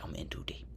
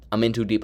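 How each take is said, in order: First: Hushed, breathless whisper to himself; whispered panic. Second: Said in the usual way. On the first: Retold or imitated. Retelling his own thoughts mid-game, whispered. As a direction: whisper it like a secret fear. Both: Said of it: "I'm like".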